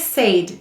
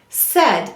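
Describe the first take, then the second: First: The vowel is a long A sound. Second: The vowel is a short E sound. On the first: The speaker calls it wrong. "we don't say said, do we?" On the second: The speaker calls it right. "We say said"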